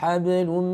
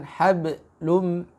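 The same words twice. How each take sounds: First: The echo sound flows on with no break. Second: A small break separates the echo sound. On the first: The speaker calls it right. "tapi langsung" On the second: The speaker calls it wrong. "jangan hablum, tidak seperti itu"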